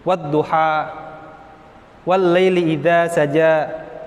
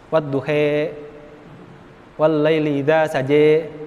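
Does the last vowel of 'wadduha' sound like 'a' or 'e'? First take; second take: a; e. First: The last vowel of wadduha is an open 'a'. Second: The last vowel of wadduha is tilted toward 'e'.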